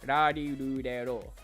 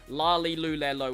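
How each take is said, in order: First: The consonant falls between R, L and D. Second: The consonant sounds like an English L. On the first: The speaker calls it right. "but it's like somewhere in between" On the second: The speaker calls it wrong. "or la li lu le lo, which is also something that tends to happen"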